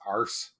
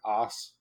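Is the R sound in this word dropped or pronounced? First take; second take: pronounced; dropped. First: An American accent with the R pronounced. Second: An English accent with the R glossed over. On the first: "To us in the States, it's like it's arse" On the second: "You say it with like an English accent where you kind of gloss over the R"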